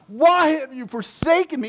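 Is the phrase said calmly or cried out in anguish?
anguished. It is cried out with anguish. The speaker calls it right. "This was the cry of his heart"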